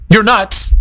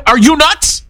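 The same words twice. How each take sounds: First: Said in the usual way. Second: Higher, incredulous "Are you nuts?"; "Are you nuts?" with a rising, harsh disbelief; harsher rhetorical question. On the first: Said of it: "instead of me saying". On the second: Shown as a demonstration. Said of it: "a lot harsher saying".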